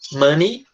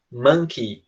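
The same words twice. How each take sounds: First: Money said "mɐni" with a rising end; Money with a short a sound, no k; contrast pronunciation. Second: Monkey said "mɐnki" with a falling end and a clear k; monkey with a short a sound and a clear k; contrast pronunciation. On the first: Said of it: "Dinheiro é money". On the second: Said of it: "macaco é monkey". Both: Shown as a demonstration. Teacher contrasting two words for the students.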